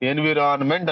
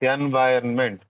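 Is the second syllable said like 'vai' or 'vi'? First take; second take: vi; vai. First: The second syllable is said like 'vi'. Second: The second syllable is said like 'vai'. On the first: The speaker calls it wrong. "ఎన్విరాన్మెంట్ అని pronounce చేస్తాం" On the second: The speaker calls it right. "It's correct pronunciation is ఎన్వైర్న్మెంట్"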